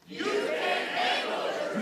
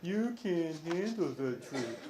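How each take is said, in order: First: It is said forcefully, with intensity. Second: It is said weakly, without force.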